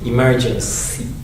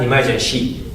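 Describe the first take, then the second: First: The consonant before the last syllable sounds like s. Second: The consonant before the last syllable sounds like sh. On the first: The speaker calls it right. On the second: The speaker calls it wrong.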